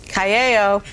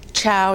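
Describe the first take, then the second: First: "Callao" said as ka-YAH-oh, three syllables, lightly imitated; mock-mangle "Callao" the way Sonny misread it, ka-ya-oh; Sonny's mangled ciao. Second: "Chow" said the Italian way, like chow; a plain, correct "Chow" for ciao, read off the sketch script; ciao said right. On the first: Sonny botching ciao at the script reading, lightly imitated mispronunciation. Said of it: "at the end of the thing he goes". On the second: Retold or imitated. Reading ciao off the script, said properly, chow. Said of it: "you know, C I A O".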